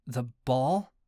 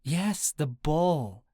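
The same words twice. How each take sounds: First: Said in the usual way. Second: Slow, drawn-out stress on "ball"; emphatic. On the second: A narrator's reading. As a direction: insist in British accent, stretching "ball". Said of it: "she emphasized".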